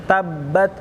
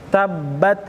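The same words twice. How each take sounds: The two takes are said the same way.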